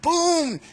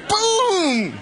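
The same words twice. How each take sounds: First: High, punchy boom; emphatic boom. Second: Very high, loud, laughing boom; bigger laughing boom. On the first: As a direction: drop the boom. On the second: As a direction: land it harder with a laugh. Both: Shown as a demonstration. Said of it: "How much more power can you put on something".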